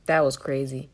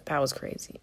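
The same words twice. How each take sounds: First: Said in the usual way. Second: Whispered. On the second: Shown as a demonstration. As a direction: repeat "That was crazy" as a breathless whisper.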